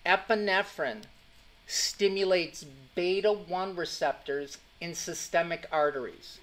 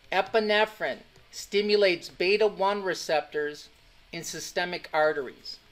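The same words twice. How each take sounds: The two takes are said the same way.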